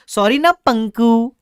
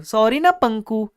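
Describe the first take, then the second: First: Slow, high cutesy plea; cutesy pleading. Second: Slow, sweet sing-song plea; cutesy pleading. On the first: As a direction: coax him sweetly, drawn out. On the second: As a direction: stretch it out coyly. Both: Retold or imitated. Customer cutely coaxing the shopkeeper, slow and sweet. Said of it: "ऐसा बोला मैंने".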